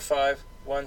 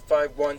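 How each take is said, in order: First: There is a pause between five and one. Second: Five runs straight into one without a pause. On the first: The speaker calls it wrong. "you're pausing" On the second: The speaker calls it right. "there's not supposed to be a pause"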